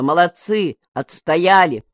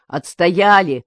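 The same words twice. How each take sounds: First: Cheering. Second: Louder, happy shout; joyful cry. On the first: Crowd cheering win. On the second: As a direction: cheer the victory. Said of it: "вскрикнул Егор весело". (весёлый громкий вскрик) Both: A narrator's reading.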